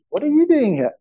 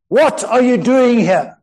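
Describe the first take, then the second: First: The question is asked in an inquiring tone. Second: The question is asked in an angry tone.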